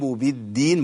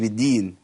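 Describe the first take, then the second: First: The d sound is doubled. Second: The d sound is single. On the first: The speaker calls it right. "برضه شدد" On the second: The speaker calls it wrong. "ما قلتش بالدين"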